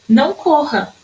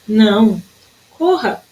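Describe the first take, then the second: First: The two words run together without a pause. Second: A pause separates the two words. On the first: Someone is told not to run. "O não corra sem vírgula" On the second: Someone is told to run. "Pede-se alguém que corra"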